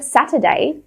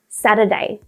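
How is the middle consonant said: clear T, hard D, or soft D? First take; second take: clear T; soft D. First: The middle consonant is a clear T sound. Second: The middle consonant is a soft, flapped D. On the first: "Instead of Saturday" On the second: "I say Saturday. ... It's really soft"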